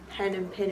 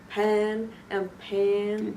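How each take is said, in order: First: The vowels are said in a neutral accent. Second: The vowels are said in a Texas accent. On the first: "instead of" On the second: "I just used A instead of I and E, so it was like"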